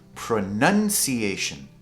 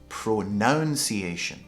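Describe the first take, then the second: First: The second syllable sounds like 'nun'. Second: The second syllable sounds like 'noun'. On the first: The speaker calls it right. "the correct way to say is pronunciation" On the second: The speaker calls it wrong. "a lot of people say pronunciation"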